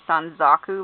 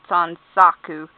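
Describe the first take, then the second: First: The middle consonant is a z sound. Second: The middle consonant is an s sound. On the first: The speaker calls it wrong. "Sometimes I make it sound like there's a Z" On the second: The speaker calls it right. "but I mean Sansaku"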